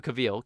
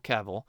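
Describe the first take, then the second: First: Cavill said as kuh-VEEL; alternate pronunciation. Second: Cavill said as KAV-ul; corrected pronunciation. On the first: Host trying out the actor's surname, Cavill as kuh-VEEL. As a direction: stress the second syllable of Cavill, with a long ee. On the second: Host correcting the actor's surname, Cavill as KAV-ul. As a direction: stress the first syllable of Cavill, with a short weak ending. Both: Shown as a demonstration.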